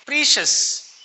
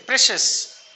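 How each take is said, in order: First: "Precious" as PREE-shus; "Precious" with PREE in place of PRESH; mispronounced precious. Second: "precious" as PRESH-us; teacher models "precious" as PRESH-us; correct pronunciation. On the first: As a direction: say "Precious" with a long ee, high-pitched. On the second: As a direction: say "precious" with a short e, as in press. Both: Shown as a demonstration. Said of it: "Correct pronunciation".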